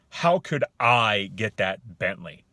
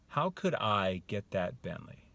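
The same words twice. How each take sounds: First: Loud, slow rhetorical question with falling end; disbelieving tone. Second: Slow, thoughtful question at normal volume; open wondering. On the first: Man answering the offer of a Bentley, disbelieving. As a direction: ask it as if it's impossible. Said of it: "You hear that, that tone?". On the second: Man pondering how to get the Bentley, wondering. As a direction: ask as if truly seeking a way. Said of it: "You hear the differences?". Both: Shown as a demonstration.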